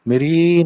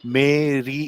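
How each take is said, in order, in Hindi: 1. दोनों स्वर छोटे करके जल्दी से बोले जाते हैं। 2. दोनों स्वर लंबे खींचकर बोले जाते हैं। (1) "उन्हें कितने जल्दी वो मे और रे से निकल गए" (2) "वो ऐसे नहीं बोलते मेरी ऐसे नहीं बोलते"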